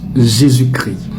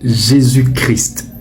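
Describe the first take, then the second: First: The S and T of Christ are silent. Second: The S and T of Christ are pronounced. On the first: "Le S et le T ne se prononcent pas" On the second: This follows some Protestant usage. "Le S et le T sont prononcés"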